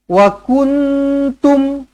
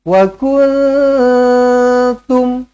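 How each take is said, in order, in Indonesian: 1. Huruf n diucapkan penuh dengan lidah terangkat. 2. Huruf n tersembunyi dalam dengung sengau dua harakat. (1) "Bukan macam ni. ... Salah" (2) "ikhfa hakiki, lidah jangan naik ke langit"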